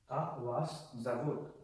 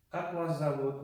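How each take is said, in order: First: "Как вас зовут" slowly, word by word; slow recap demonstration. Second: Said in the usual way. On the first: Shown as a demonstration. Teacher recapping how to ask what is your name, slowly word by word. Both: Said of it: "So to recap".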